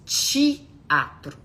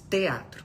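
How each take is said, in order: First: It is said with a Mineiro accent. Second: It is said with a neutral accent.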